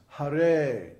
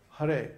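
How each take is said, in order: First: "Hare" with a short "Ha" and long, louder "re"; long second syllable. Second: "Hare" quick, second syllable cut short; both syllables short. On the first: Teacher showing the right rhythm, "Hare" with long "re". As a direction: stretch the "re" of "Hare" over two beats. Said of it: "the second syllable is long". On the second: Teacher showing the wrong rhythm, "Hare" with both syllables short. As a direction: say "Hare" with no lengthened "re". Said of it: "So it's not Hare". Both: Shown as a demonstration.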